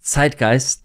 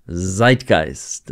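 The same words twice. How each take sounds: First: "zeitgeist" with a German ts onset; "zeitgeist" as a native German word; German pronunciation. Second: "Zeitgeist" with a buzzing English z onset; imitated American "Zeitgeist"; American pronunciation. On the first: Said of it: "They don't say zeitgeist". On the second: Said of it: "the way Americans pronounce zeitgeist". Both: Shown as a demonstration.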